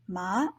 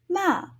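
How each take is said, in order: First: It is said with the second tone. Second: It is said with the fourth tone. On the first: It means hemp. "the second one, hemp" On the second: It means scold. "the fourth is scold"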